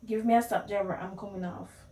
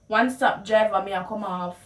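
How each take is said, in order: First: Said in the usual way. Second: Calling out to the bus driver in Patois; a bit louder Patois call to the driver; Jamaican Patois. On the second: Shown as a demonstration. Passenger calling to the driver, in Jamaican Patois. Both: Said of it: "how you would translate the words".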